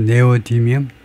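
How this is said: It begins with 'neh' and has even stress. "우리말로 네오디뮴"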